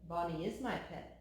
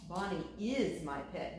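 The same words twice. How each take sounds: First: "my" stressed, the rest kept low and even; stubborn farmer presses "my" in "Bonnie is my pet". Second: "is" stressed, ending on a rise; the farmer repeats himself and leans on "is". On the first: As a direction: lean on "my" as if claiming her. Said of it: "responded the farmer". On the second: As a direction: insist on "is" to repeat the point. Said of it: "he repeated". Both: A narrator's reading.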